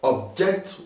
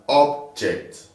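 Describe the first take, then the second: First: The stress is on the second syllable. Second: The stress is on the first syllable. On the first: It is used as a verb. "I object what you're saying" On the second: It is used as a noun. "This is an object"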